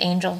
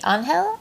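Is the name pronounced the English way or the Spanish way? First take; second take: English; Spanish. First: The name is pronounced the English way. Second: The name is pronounced the Spanish way. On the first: This is the actual name. "it really is just Angel, spelled A-N-G-E-L" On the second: This is the nickname used by friends and family. "That is my name in Espanol"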